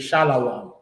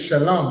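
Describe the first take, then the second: First: The second syllable is drawn out into 'lawam'. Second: The second syllable is a short, plain 'lom'. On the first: This is not how the community says it. The speaker calls it wrong. "We don't say shalawam" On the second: This is how the community says it. The speaker calls it right. "We say shalom"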